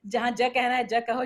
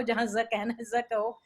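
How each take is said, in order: First: "ज" said as a hard j; j without nukta. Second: "ज" said as a buzzing z; z with nukta. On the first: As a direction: say "ज" as English j, no buzz. ("ज" बिना नुक्ते के, जैसे जहाज़ का पहला अक्षर) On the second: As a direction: say the letter "ज" as z. ("ज" को नुक्ते के साथ ज़ बोलें) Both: Shown as a demonstration. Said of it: "नुक्ता जहाँ नहीं लगना है".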